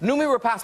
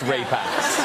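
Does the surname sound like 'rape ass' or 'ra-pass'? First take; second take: ra-pass; rape ass. First: The surname is said like 'ra-pass'. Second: The surname is said like 'rape ass'. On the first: The speaker calls it right. "I was saying that right" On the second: The speaker calls it wrong.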